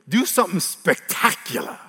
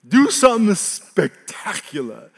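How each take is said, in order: First: Said in the usual way. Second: Mocking, drawn out. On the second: Shown as a demonstration. Devil's taunt repeated.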